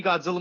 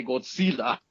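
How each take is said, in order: First: Said in the usual way. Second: Godzilla as "Gold-seela", Spanish-style; Spanish TV pronunciation. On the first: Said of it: "put any Godzilla movie". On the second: Retold or imitated. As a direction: say Godzilla with S and a long "ee". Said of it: "on Spanish T V networks".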